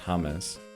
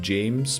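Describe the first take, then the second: First: The name is said as in Spanish. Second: The name is said as in English. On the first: "but it's pronounced James" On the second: "that's spelled James"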